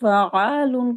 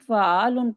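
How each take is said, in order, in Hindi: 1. बीच का व्यंजन रोककर दोहराया जाता है। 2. बीच का व्यंजन सिर्फ़ एक बार बोला जाता है। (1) "तशदीद" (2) "बाज़ औक़ात हम गलती करते हैं"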